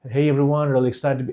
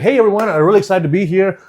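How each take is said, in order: First: The voice is small and held back. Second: The voice is big, uncontrolled and frantic.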